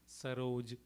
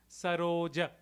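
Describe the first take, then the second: First: The final vowel is muted or dropped. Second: The word ends with a full open 'a'. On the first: This is the North Indian pronunciation. "Here it would be" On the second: This is the Sanskrit pronunciation. "is how we would pronounce in Sanskrit"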